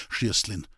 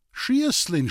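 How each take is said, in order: First: Said in the usual way. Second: High call up into the tree. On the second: A narrator's reading. Boy calling up to the woman in the tree, shouting. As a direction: shout her name upward. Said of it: "schrie ich hinauf".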